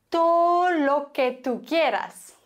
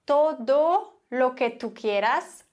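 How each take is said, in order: First: "Todo" said as "to", d dropped, higher and louder; slow "to lo que tú quieras" with the d gone; swallowed d. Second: "todo" with the d sounded, slow and careful; full "todo lo que tú quieras"; clear todo. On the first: Teacher showing casual Spanish: "Todo" as "to". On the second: Teacher showing the careful form: slow, full "todo". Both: Shown as a demonstration. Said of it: "Das D wird ganz häufig nicht gesprochen".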